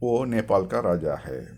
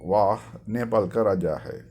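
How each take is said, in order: First: The first word is a short reduced 'oh'. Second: The first word is a full 'vah'. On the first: This is the casual spoken form. "பேச்சுவாக்கில் சொல்லும்போது" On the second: This is the grammatically correct form. "கிராமராக சொல்லும்போது வாஹ்னு வரும்"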